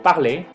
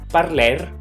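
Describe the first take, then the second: First: The word ends in a vowel with no R. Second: The word ends with an audible R sound. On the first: The speaker calls it right. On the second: The speaker calls it wrong.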